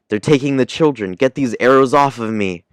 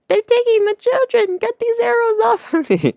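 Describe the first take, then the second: First: A weaker imitation of Nami's voice. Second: A closer imitation of Nami's voice.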